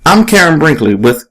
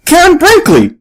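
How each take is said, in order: First: Said in the usual way. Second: Much higher excited shout of her name; belted out. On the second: A narrator's reading. Young fan recognizing the reporter, belting out her name. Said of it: "belts out".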